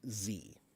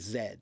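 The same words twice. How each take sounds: First: It is said as 'zee', American style. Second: It is said as 'zed', non-American style.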